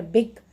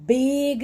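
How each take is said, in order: First: बिग said short, "big"; short vowel. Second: बिग stretched out as "beeeg"; wrong long vowel. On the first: Teacher corrects the long version, बिग with a short vowel. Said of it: "इसमें short vowel का pronunciation". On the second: Teacher shows learners what not to say, बिग with a long vowel. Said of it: "बिग नहीं बोल रहे". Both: Shown as a demonstration.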